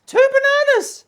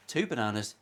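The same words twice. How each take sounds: First: Shrieked out very high and loud; sudden piercing mock-excited yell of both words; comic shriek. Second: Said in the usual way. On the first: Vlogger yelling a banana gag to viewers, comic shriek.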